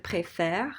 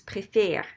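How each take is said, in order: First: "préfère" ending in open eh; correct flipped accent. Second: "préfère" ending in tight closed é; accent left unflipped. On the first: Teacher giving the proper form, "préfère" with open eh. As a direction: say "préfère" with "fair" at the end. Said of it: "Instead of". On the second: Teacher showing the wrong form, "préfère" with closed é. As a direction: say "préfère" with "fay-r" at the end. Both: Shown as a demonstration.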